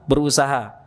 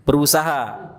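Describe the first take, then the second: The two takes are said the same way.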